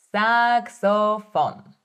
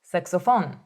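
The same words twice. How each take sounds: First: Saxophone said slowly, syllable by syllable; slow demo. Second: Said in the usual way. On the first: Shown as a demonstration. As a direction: stretch out Saxophone slowly and clearly. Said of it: "teacher models word slowly". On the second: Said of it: "teacher models the word".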